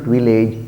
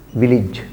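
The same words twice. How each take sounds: First: Village said as vi-LAYJ; mispronunciation. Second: Village said as VIL-ij; correct pronunciation. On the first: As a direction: say village with a long "ay" before the j. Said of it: "It is not village". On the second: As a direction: say village with a short, unstressed "ij". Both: Shown as a demonstration.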